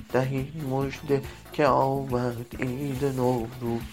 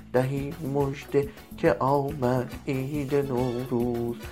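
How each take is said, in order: Both takes have the same delivery.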